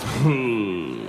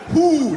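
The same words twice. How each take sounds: First: It is said lazily with slack lips. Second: It is said crisply with tight lips.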